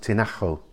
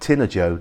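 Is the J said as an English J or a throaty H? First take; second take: throaty H; English J. First: The j is a throaty h sound. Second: The j is an English j sound. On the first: The speaker calls it right. "the J becomes a sort of ugh sound" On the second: The speaker calls it wrong. "it looks like Tinajo"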